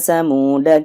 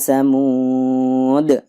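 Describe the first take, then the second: First: The word ends with a short a vowel. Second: The word ends on a bare d consonant. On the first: The reciter continues without stopping. "dibaca pendek ketika wasol" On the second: The reciter stops after this word. "Dalnya dibaca sukun ketika waqaf"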